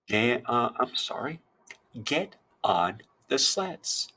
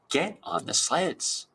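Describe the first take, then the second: First: It is read in a plain, calm voice. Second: It is read in a lively, excited voice.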